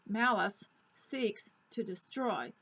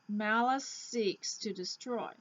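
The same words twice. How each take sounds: First: The end and start sounds are said separately. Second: The end and start sounds are blended together. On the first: The speaker calls it wrong. "You wouldn't say malice seeks to destroy because it is um, it is not smooth" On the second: The speaker calls it right. "So here's how you say it"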